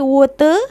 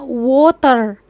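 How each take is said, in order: First: The r sound is weak and barely heard. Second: The r sound is strong and clearly pronounced. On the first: This is how it is said in Malaysia. "di sini water R-nya tuh kurang jelas sekali terdengar" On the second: This is how it is said in Indonesia. "Kalau kita di sana water"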